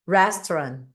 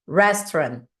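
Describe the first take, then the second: Both takes have the same delivery.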